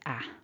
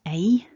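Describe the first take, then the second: First: The vowel is a single short vowel. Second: The vowel is a gliding double vowel. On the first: The speaker calls it wrong. "sometimes people will go with a short vowel" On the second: The speaker calls it right. "It's a double vowel when we say it"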